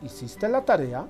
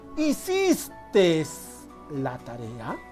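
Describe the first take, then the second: First: The first word ends with a plain e vowel. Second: The first word ends with an added s sound. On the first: The speaker calls it right. "de simplemente decir" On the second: The speaker calls it wrong. "Escuchamos decir"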